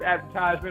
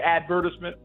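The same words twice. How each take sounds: First: It is said in a non-British way. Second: It is said in a British way.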